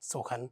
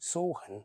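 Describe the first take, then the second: First: The u vowel is short. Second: The u vowel is long. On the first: The speaker calls it wrong. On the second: The speaker calls it right.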